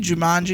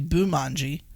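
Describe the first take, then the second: First: The word begins with a J sound. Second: The word begins with a B sound. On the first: The speaker calls it right. "the movie Jumanji" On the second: The speaker calls it wrong. "is actually Boomanji"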